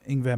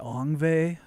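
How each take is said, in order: First: The name begins with an 'ing' sound. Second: The name begins with an 'ong' sound. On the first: "said it right" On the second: "some people say Ongve"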